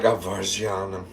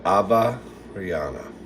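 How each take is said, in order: First: "Avargiana" with a soft French zh in the middle; Frenchified "Avargiana", zh for the g; French-style pronunciation. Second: "Ava Rihanna" as two names, with a clear R; lower, softer "Ava Rihanna", split into two names; confirmed pronunciation. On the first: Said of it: "Is it kind of French". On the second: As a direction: say "Ava Rihanna" as Ava, then Rihanna, falling. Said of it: "She just confirmed it". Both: Shown as a demonstration.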